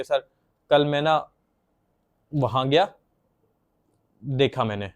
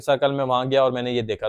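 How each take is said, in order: First: Long stuck pauses between the words; child freezing mid-sentence; blocked pauses. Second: Said in the usual way. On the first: Shown as a demonstration. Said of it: "blockage आना, possess आना बात करते हुए". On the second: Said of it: "जैसे अगर उन्होंने बोलना है".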